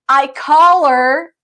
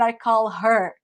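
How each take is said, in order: First: The h in 'her' is dropped and linked. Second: The h in 'her' is clearly pronounced. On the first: The speaker calls it right. "Repeat after me" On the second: The speaker calls it wrong. "not I call her"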